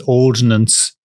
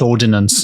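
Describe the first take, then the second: First: It is said with two syllables. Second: It is said with three syllables. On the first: The speaker calls it right. "I know it's Ordnance" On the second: The speaker calls it wrong. "not Ordinance"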